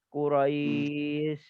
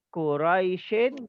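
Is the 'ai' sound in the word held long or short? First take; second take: long; short. First: The word stops early; 'ai' is drawn out long. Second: The word continues with its ending; 'ai' stays short. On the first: The reader stops on this word. "kalau kita berhenti, baru ada mad lin" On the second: The reading continues without stopping. "Bila terus tidak ada mad lin"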